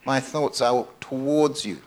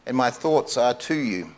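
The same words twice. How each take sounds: First: "towards" stretched slowly, falling away after; slow, deliberate weight on "towards"; stress on TOWARDS. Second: "to" picked out, falling onto "you"; stress on TO. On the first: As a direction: draw out the word "towards". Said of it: "a slight but very powerful difference". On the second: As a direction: lean on the little word "to". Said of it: "what he's really saying is". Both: Shown as a demonstration.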